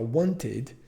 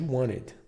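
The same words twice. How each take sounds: First: The word is said fully, as it is spelled. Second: The word is said in a reduced, natural way. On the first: The speaker calls it wrong. "ao invés de falar wanted" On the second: The speaker calls it right. "ela faz mais um som de wanted"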